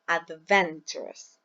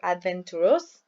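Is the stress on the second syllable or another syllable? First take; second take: second; another. First: The stress is on the second syllable. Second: The stress is not on the second syllable. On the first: The speaker calls it right. "We say adventurous. The second syllable" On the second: The speaker calls it wrong. "or adventurous"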